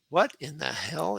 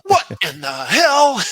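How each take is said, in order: First: The phrase is said in a plain, mild way. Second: The phrase is said with forceful, dramatic energy.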